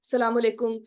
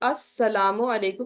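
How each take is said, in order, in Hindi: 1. शुरू वाला अक्षर और आखिरी u दोनों छोड़े जाते हैं। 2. हर अक्षर पूरा बोला जाता है, 'as' से शुरू करके। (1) "ऐसे नहीं" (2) "प्रॉपर अस्सलामु अलैकुम"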